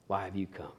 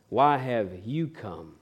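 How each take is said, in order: First: Much softer and lower, almost breathed; hushed repeat. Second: Slow and soft, gently asking; tender question. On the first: Jesus repeats the question to Judas, hushed and low. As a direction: let the repeat fall to a hush. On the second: Jesus asking the betraying friend, slow and soft. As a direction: ask it softly, searching his face. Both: Acted.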